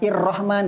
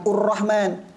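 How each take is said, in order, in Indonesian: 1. Kata ini diawali dengan vokal i. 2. Kata ini diawali dengan vokal u. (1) "bukan Ir-Rahman" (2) "bukan Ur-Rahman"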